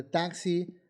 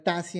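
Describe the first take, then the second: First: Said in the usual way. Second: "taxi" said as "tasi" without the KS; mispronounced "taxi"; wrong pronunciation. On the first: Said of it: "en lugar de taxi". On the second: Shown as a demonstration. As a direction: soften the X in "taxi" to a plain S. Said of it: "pronunciar taxi en lugar de taxi".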